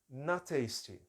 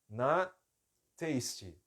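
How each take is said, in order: First: The two words run together without a pause. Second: There is a pause between the two words. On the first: The speaker calls it right. "Eu preciso fazer direto" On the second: The speaker calls it wrong. "essa pausa fica estranha"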